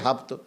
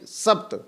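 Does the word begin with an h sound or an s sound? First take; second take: h sound; s sound. First: The word begins with an h sound. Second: The word begins with an s sound. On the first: This is how the Persians would say it. "फिर वो बोलेंगे हप्त" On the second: This is how we say it. "जहाँ वो सा बोलते हैं वहाँ प्रायः हा का उच्चारण करते हैं"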